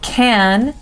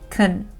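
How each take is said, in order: First: The word is said with a full vowel. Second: The word is said with a reduced vowel.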